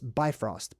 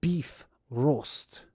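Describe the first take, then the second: First: It is said the common English way. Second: It sounds like the words 'beef roast'. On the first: The speaker calls it wrong. "People commonly pronounce this Bifrost, but that's not how you pronounce it" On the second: The speaker calls it right. "It's beef roast. Like beef roast"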